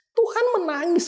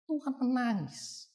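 First: "Tuhan" much higher, rising at the end; emphatic repeat. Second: Softer, slower, falling at the end; hushed statement. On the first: Preacher to congregation, pressing the point with a high rising tone. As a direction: lift "Tuhan" high and let "menangis" rise. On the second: Preacher to congregation, dropping to a hushed, slow tone. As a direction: let it sink in quietly. Preacher stating Jesus wept. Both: Shown as a demonstration.

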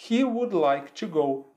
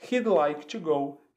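First: Slow careful "He would like to go" with "would" fully said; full form. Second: Slow "He'd like to go" with "He'd" as one syllable; contracted form. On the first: Teacher modelling the uncontracted form for students, slow and careful. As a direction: spell out "He would" slowly, both words whole. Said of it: "a gente pode contrair o he com o would". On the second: Teacher modelling the contraction for students, slow and clear. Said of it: "Como é que fica, então?". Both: Shown as a demonstration.

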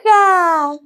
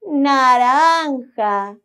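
First: "naranja" sung out higher and louder; excited. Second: "Naranja" drawn out slowly, each syllable clear; slow naming. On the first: Acted. Playing the orange bar for the children, "naranja" high and excited. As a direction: pop out "naranja" with delight. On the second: Shown as a demonstration. Teaching the children the colour, "Naranja" slow and clear.

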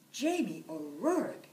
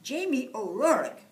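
First: Louder scolding of his full name; wife telling her husband off; furious. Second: Loud, higher call of his full name; wife calling her husband. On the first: Furious wife scolds Jamie, louder and sharp. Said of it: "she was furious". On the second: Wife calls Jamie by full name, loud and nagging. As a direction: summon the lazy husband by name. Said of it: "his wife Eileen would say". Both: Acted.

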